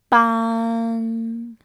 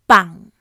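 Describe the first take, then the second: First: The syllable has a mid level pitch. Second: The syllable has a low falling, creaky pitch. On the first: It means breath. "Mid pitch" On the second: It means to carry a funeral. "Low falling pitch. Creaky"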